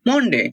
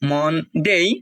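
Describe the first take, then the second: First: The final syllable ends in a plain 'de'. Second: The final syllable ends in a 'dei' glide. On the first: This is how many local learners say it. The speaker calls it wrong. "আমরা অনেক বলি মনডে" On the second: This is the correct pronunciation. The speaker calls it right. "এটা হবে সানডে, মনডে"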